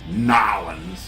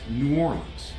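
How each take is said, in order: First: The name is squeezed into about two syllables. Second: The name is said fully as separate words. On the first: This is how outsiders say it. The speaker calls it wrong. "You non-Louisiana people try to say Nolans" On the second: This is how locals say it. The speaker calls it right. "It's it's New Orleans. That's it"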